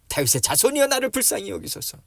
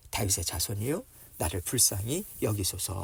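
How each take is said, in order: First: Raised, high-pitched plea; louder crying out. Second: Said in the usual way. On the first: Acted. Bartimaeus calling to Jesus, louder crying out. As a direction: call out louder to be heard over the crowd. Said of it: "더 크게 외쳐요". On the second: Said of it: "크게 소리질러 이르되".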